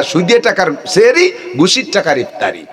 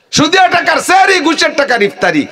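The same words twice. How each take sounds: First: Said in the usual way. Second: Preaching shout. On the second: Acted. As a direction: hammer the charge home to the crowd at full voice. Repeats line, then shouts it.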